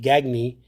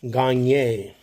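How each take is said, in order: First: The name is said in a non-French way. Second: The name is said in a French way. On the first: This is how the player himself says it. "He pronounced it Gagny" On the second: This is the French way of saying it. "the French pronunciation is like Eric Gagne"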